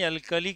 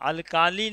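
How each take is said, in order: First: The middle vowel is short and quick. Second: The middle vowel is drawn out long. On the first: The speaker calls it right. "अल्कली कहिएगा" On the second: The speaker calls it wrong. "अल्काली नहीं"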